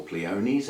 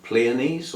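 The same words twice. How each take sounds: First: Pleonies as plee-OH-neez; alternative pronunciation. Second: Pleonies as PLEE-uh-neez; alternative pronunciation. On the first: Host offers another orchid name, Pleonies said plee-OH-neez. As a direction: say Pleonies with a full "oh" in the middle. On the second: Host unsure of the orchid name, Pleonies said PLEE-uh-neez. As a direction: say Pleonies with a weak "uh" in the middle. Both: Shown as a demonstration. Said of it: "however you say it".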